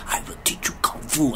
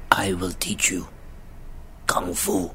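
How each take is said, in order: First: Whispered, softer and lower; hushed quote. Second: Much lower, soft and slow; sexy mentor voice. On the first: Retelling the mentor's line to Jaden, in a hushed whisper. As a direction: breathe the line out quietly. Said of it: "he said it with, like". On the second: Imitating the mentor's line to Jaden, in a sexy low voice. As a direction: purr it low like a seductive kung fu master. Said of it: "I'm gonna say this to the mic so it sounds sexy". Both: Retold or imitated.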